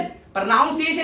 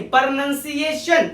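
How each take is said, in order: First: "प्रोनाउंसिएशन" with noun in the middle; wrong pronunciation. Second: "प्रोनंसिएशन" slowly as pur-nun-si-AY-shun; correct pronunciation. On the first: Teacher rejects it for learners, pro-noun-siation. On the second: Teacher corrects learners, slow "प्रोनंसिएशन" with nun. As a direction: keep nun, never noun, in "प्रोनंसिएशन". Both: Shown as a demonstration. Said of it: "प्रोनाउंसिएशन नहीं".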